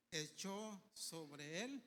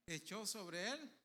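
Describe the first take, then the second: First: Echó sobre él, drawn out very slowly; slow emphatic phrase. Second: Said in the usual way. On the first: Shown as a demonstration. Preacher stresses the mantle falling, drawn out. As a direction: let "echó sobre él" hang, word by word. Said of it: "repeats phrase". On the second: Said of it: "repeated phrase".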